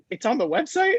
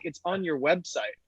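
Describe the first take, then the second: First: High-pitched astonished question; incredulous echo. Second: Lightly imitated Welsh caller, matter-of-fact answer; a quieter statement with a hint of Welsh; Welsh accent. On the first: Retold or imitated. Founder retells hearing his number is online, high incredulous echo. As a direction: echo it back in mock disbelief, voice shooting up. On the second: Welsh customer answers the founder's question, lightly imitated Welsh accent. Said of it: "in this thick Welsh accent".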